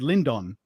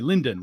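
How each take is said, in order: First: The second syllable keeps a full vowel. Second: The second syllable has a reduced schwa vowel. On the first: The speaker calls it right. "you very carefully said Lindon" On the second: The speaker calls it wrong. "reduce the vowel and just say Linden"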